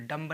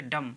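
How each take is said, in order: First: डम्ब said with a b after the m; wrong b sounded. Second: डम said ending on m; silent b. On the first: Teacher showing students the wrong डम्ब. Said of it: "डम्ब नहीं कहेंगे". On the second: Teacher giving students the right डम. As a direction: close डम on the m, b silent. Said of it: "इसे कहेंगे डम". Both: Shown as a demonstration.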